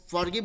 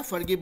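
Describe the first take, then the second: First: फॉरगिव with a long open first vowel; फॉरगिव with full 'for'. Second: फॉरगिव said 'fur-GIV'; quick short 'fur' opening on फॉरगिव; फॉरगिव with reduced 'fur'. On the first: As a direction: say फॉरगिव as spelled. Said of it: "फॉरगिव बोलता है या". (फॉरगिव, पूरे 'फॉर' के साथ) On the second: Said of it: "या फॉरगिव बोलता है". (फॉरगिव को 'फर-गिव' जैसे बोलें) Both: Shown as a demonstration.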